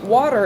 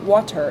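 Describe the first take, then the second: First: It is said the American way. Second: It is said the British way. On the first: "is the way Americans talk" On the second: "is the way British people talk"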